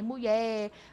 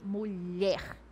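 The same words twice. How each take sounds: First: It has a casual, reduced home pronunciation. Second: It has the full standard pronunciation. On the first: It is the familiar way spoken among family. "então eu falava também mulher, porque é comum" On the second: It is the correct form for any setting. "o correto é o quê?"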